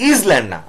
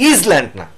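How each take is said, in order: The two takes are said the same way.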